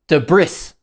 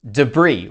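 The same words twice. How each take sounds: First: The word ends with an audible S sound. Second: The word ends without any S sound. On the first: The speaker calls it wrong. "Many people wrongly pronounce the S at the end and they say debris" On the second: The speaker calls it right. "The correct pronunciation is debris with a silent S"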